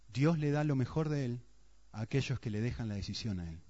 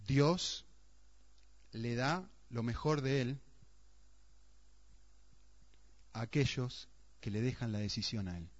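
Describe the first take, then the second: First: Said in the usual way. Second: Savoring quote. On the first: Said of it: "Una frase". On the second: Shown as a demonstration. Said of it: "Una frase que alguien dijo".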